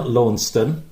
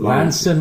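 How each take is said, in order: First: The name is said in the BBC form. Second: The name is said in a non-BBC local form.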